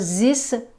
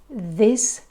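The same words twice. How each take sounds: First: The word begins with a buzzing z sound. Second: The word begins with a soft th sound. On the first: The speaker calls it wrong. "So this, no" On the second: The speaker calls it right. "much, much better"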